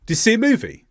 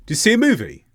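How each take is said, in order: First: Reduced, run together, "Do you see a movie?" as "d'y see a movie"; fast natural English. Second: "Do you see a movie?" blurred together with the small words swallowed; fast natural English. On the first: Teacher demonstrating fast natural speech to learners. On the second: Teacher repeats the fast sentence for listeners. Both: Shown as a demonstration. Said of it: "an example of fast English naturally spoken".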